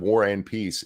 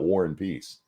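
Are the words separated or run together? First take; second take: separated; run together. First: Each word is said separately and clearly. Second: The words run together into one name. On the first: "stop and enunciate like that" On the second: "so it comes out War and Peace"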